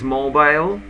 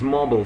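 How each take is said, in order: First: It is said in a British accent. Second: It is said in an American accent. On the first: "British pronunciation is mobile phones" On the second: "American pronunciation is mobile phone"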